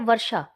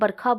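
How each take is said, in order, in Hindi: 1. बीच का व्यंजन 'sh' ध्वनि है। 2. बीच का व्यंजन 'kh' ध्वनि है। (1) "होता क्या है वर्षा" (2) "बरखा बोला जाता है, जो कि सही उच्चारण नहीं है"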